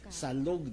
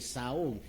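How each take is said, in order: First: The word has an L sound in the middle. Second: The word has no L sound in the middle. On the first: This is the standard form. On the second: This is how Cebu speakers say it.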